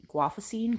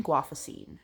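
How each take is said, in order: First: "Guafacine?" lifted with a rising end; questioning tune. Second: "Guafacine." lower, falling at the end; falling statement tune. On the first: Vlogger tests a drug name, "Guafacine?" as a rising question. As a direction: ask "Guafacine?" as if checking the pronunciation. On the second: Vlogger retries the drug name, "Guafacine." falling like a statement. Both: Real, not acted. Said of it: "how to pronounce it".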